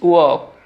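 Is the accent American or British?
British. A British accent with the r sound dropped. "British অ্যাকসেন্টে বলবো ওয়াক"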